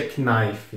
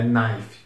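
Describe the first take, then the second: First: Knife with the K sounded, "ki-naifi"; knife mispronounced with an audible K before the N; wrong, K sounded. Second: Knife starting straight on the N, "naif"; knife pronounced with a silent K; correct, silent K. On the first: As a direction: voice the K at the start of knife, as "kinaifi". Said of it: "não se pronuncia knife". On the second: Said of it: "começa a pronúncia no N logo". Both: Shown as a demonstration.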